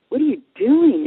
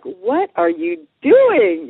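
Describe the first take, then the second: First: Higher-pitched, taken-aback question; retold surprise at a persistent follower; mock startled question. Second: High, loud, very drawn-out question; acted-out mounting unease at a stalker; nervous disbelief. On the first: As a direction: act out being caught off guard by someone. Seminar leader startled to see her again. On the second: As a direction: stretch each word in mock alarm. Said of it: "she's starting to, like, get a little nervous".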